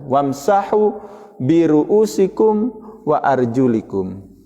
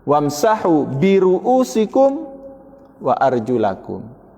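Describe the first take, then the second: First: The vowel after arjul is i. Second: The vowel after arjul is a. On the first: The feet are to be wiped like the head. "dengan wa arjulikum kasra" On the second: The feet are to be washed like the face and hands. "Dengan menasabkan wa arjulakum"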